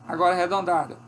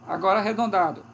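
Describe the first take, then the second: Both takes have the same delivery.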